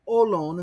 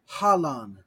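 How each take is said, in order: First: The word begins with a vowel, no h sound. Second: The word begins with a breathy h sound. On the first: This follows the Koine Era pronunciation. "That's just smooth" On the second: This follows the Erasmian pronunciation. "the aspiration, as in Erasmian"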